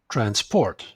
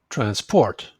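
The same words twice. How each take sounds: First: The stress is on the second syllable. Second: The same.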